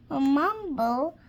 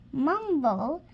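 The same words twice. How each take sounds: The two takes are said the same way.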